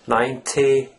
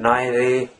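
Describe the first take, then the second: First: The middle consonant is a clear, crisp T. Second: The middle consonant sounds between T and D. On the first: The speaker calls it wrong. "you don't say ninety" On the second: The speaker calls it right. "it's almost like D. It's somewhere in between T and D"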